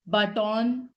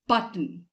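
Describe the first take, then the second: First: The 'o' vowel in the second syllable is heard. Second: The 'o' vowel in the second syllable is silent. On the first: The speaker calls it wrong. "it's not button" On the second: The speaker calls it right. "The sound of O in this word disappears"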